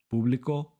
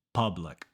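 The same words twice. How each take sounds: First: Público with an oo vowel, rising; Spanish pronunciation. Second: Public with uh, low falling tone; English pronunciation. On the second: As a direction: answer with English "PUH-blic" for public. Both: Shown as a demonstration. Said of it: "switching between Spanish and English".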